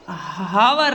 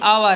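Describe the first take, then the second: First: It begins with an h sound. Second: It begins with a vowel sound. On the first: The speaker calls it wrong. "हावर नहीं है" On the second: The speaker calls it right. "ये आवर है ... H क्या हो गया? साइलेंट हो गया"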